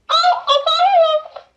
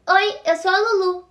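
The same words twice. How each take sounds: First: Much higher, louder toy voice; talking doll voice. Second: Said in the usual way. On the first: Shown as a demonstration. Girl demonstrating her toy's voice at the party, high squeaky doll. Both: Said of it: "demonstrating toy voice".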